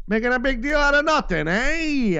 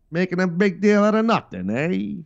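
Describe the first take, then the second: First: High, loud carnival barker from the twenties. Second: Put-on higher, louder old-movie gangster with cigar; old gangster movie guy. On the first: Retold or imitated. Mocking critics like a twenties carnival barker, high and loud. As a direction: hawk it like an old-time barker calling a crowd. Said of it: "like a carnival barker guy again from the twenties". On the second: Mocking critics as an old gangster movie tough guy, higher and louder. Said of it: "like one of those guys from the old gangster movies".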